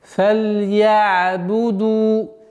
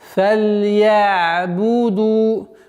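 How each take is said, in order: Both takes have the same delivery.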